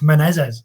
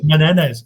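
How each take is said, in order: First: The middle consonant is a Z sound. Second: The middle consonant is an N sound. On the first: The speaker calls it right. "swap the N for a Z" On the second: The speaker calls it wrong. "keep saying"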